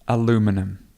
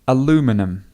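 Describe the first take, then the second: First: It has four syllables, ending in -num. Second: The same.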